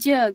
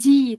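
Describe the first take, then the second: First: The syllable ends in an 'e' vowel. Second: The syllable ends in an 'ee' vowel. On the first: The speaker calls it right. "tapi je gitu" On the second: The speaker calls it wrong. "Ini dibacanya bukan ji"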